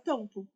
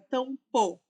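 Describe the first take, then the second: First: The final vowel sounds like a soft 'u'. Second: The final vowel sounds like a full 'o'. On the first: "A gente fala tampo" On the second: "São raras as palavras que fala tampo"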